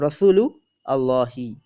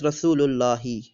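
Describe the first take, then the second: First: The two words are said separately. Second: The two words are run together. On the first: "we just say uh" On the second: "or pronounced as"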